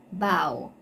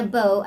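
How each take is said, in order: First: "Bow" with an ow sound; "Bow" as in bending forward; bow rhyming with cow. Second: "bow" with a long o; "bow" as in bow and arrow; bow rhyming with go. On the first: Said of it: "they are pronounced differently". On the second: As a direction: say "bow" to rhyme with go. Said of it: "as in a bow and arrow". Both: Shown as a demonstration.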